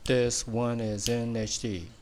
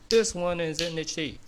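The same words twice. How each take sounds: First: It is said slowly. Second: It is said fast.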